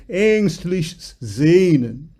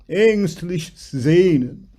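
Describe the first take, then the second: The two takes are said the same way.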